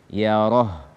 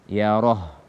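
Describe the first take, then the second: The two takes are said the same way.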